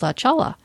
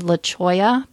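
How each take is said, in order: First: The second word has an 'l' sound in the middle. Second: The second word has a 'y' sound in the middle. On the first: The name is read out literally from its spelling. The speaker calls it wrong. "that's how Siri pronounces it, like turn right onto La Chala" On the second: This is how the road name is actually said. The speaker calls it right. "there's a road here that's called La Choya"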